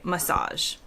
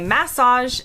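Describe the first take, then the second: First: It is said with an American pronunciation. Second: It is said with a British pronunciation. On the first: "in the U S, we say massage" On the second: "In the U K, many people say massage"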